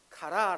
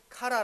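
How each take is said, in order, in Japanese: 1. アクセントは最後の音節にあります。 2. アクセントは最初の音節にあります。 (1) "그리스발음은카라라고발음해야됩니다" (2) "카라라고발음하는것이아니라"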